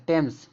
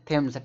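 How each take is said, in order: First: टेम्स with a hard Hindi टा at the start; टेम्स with T, no th sound; hard T pronunciation. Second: थेम्स with an aspirated th at the start; थेम्स opened with aspirated th; th pronunciation. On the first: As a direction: say टेम्स opening on unaspirated T. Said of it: "टेम्स पढ़ा जाएगा". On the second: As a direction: say थेम्स starting on a breathy Hindi था sound. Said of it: "टा का sound". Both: Shown as a demonstration.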